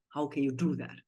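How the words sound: The anger is held back, forceful but contained.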